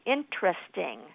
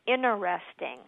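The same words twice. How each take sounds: First: The word is said with three syllables. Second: The word is said without its first t sound. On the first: "or three" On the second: "what's not correct is interesting, where you leave out that first T"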